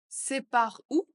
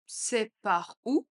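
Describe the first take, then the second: First: Lively question. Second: Said slowly and evenly for learners; slow repeat. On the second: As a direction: stretch it out calmly. (lentement, pour répéter) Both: Shown as a demonstration. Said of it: "phrase modelled twice".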